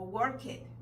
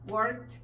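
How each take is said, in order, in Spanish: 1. La terminación añade una sílaba con vocal. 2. La terminación no añade sílaba ni vocal. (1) "con frecuencia la leemos, stop it o work it. No, no es eso" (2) "Vamos a quitar el sonido de la E ahí"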